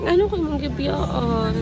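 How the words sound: The line is said in a disappointed tone. "Then disappointed"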